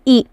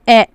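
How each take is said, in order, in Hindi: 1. स्वर एक लंबी, बंद 'ee' आवाज़ है। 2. स्वर एक मध्य, खुली 'ay' आवाज़ है। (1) "ये मारूफ हो गया" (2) "तो ये मजहूल हो गया"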